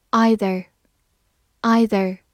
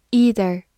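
First: "either" starting with an eye sound; "either" with a long i opening; first pronunciation of either. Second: "either" starting with a long ee; "either" with an ee opening, as in "eat"; alternative pronunciation of either. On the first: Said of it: "也可以读作either". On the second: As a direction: say "either" as EE-ther. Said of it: "也可以读作". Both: Shown as a demonstration.

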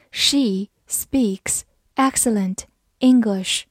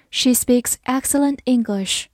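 First: Slow, careful sentence read. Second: Said in the usual way. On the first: Shown as a demonstration. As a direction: read it slowly for learners. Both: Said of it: "slow then normal reading".

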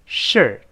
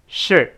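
First: Slow reading. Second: Short "shirt" with the final t unreleased; faster reading. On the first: Teacher modelling for learners, slow "shirt". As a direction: say "shirt" slowly and carefully. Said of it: "这是慢慢读". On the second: Teacher speeding up for learners, quicker "shirt". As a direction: cut "shirt" short, tongue holding the t. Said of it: "再快一点儿". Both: Shown as a demonstration.

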